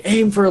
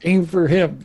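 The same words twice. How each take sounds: First: High, raised mock shout; shouted order. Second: Higher mock shout; shouted order. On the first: Game master voicing Heather directing her goons, mock shouting. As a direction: call it out like a squad command. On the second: Game master as Heather aiming her goons, mock shouting. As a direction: bark it to the troops, half in play. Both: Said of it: "You're, like, shouting".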